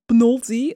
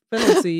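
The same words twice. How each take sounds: First: "penalty" squashed to "pnólti"; mispronounced penalty. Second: Said in the usual way. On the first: Retold or imitated. Friend mimics football talk, mispronounced "penalty" as "pnolti". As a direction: swallow the first vowel of "penalty" and stress an o, "PNOL-ti". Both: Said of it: "sommige mensen zeggen het ook met voetbal".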